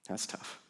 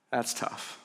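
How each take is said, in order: First: Whispered echo, barely there; a whispered repeat, much softer and lower. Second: Breathy, hushed aside; softer, breathier, lower aside. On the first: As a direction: breathe it out as a whisper. Pastor repeats the reaction even quieter. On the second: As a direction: let it fall almost to nothing. Pastor reacts quietly to Mary's grief. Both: Real, not acted.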